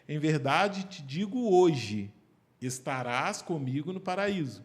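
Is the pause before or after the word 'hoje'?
after. The pause comes after the word hoje.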